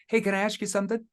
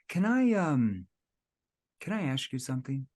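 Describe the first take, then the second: First: It is said straight through without pausing. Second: It has a hesitating pause before the question.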